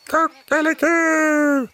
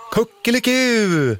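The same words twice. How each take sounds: First: High, slow, drawn-out rooster crow; long high cock-a-doodle-doo. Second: High, slow mock crow by the kids; children's playful high cock-a-doodle-doo; children imitating a rooster. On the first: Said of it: "gal tuppen". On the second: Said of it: "svarar alla barnen". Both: A narrator's reading.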